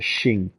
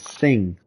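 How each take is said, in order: First: The word begins with an 'sh' sound. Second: The word begins with an 's' sound. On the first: The speaker calls it wrong. "I always thought it was a sh S H, like a shing" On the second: The speaker calls it right. "but it's a sing"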